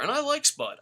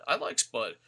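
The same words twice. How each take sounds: First: I like Spud, with I much higher and louder; defending a wrestler with a sharp high I; emphatic. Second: Said in the usual way. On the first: Real, not acted. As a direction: insist on I like Spud, I jumping high.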